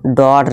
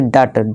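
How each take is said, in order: First: The vowel sounds like 'aw'. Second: The vowel sounds like 'uh'. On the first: The speaker calls it right. "डॉट ना कि डट" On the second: The speaker calls it wrong. "ना कि डट"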